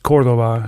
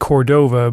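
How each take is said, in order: First: The name is pronounced in a Spanish way. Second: The name is pronounced in an English way. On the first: This is how the name is said in its original language. "but in Spanish it's Cordova" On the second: This is how a friend of the author says it. "I've heard Larry say Cordova"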